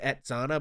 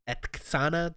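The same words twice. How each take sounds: First: The middle consonant sound is a plain 'ts'. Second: The middle consonant sound is a 'tks' cluster. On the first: This is how most people say it. "everyone says Etzana" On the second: This is how it is actually said. "like the T K S kind of sound"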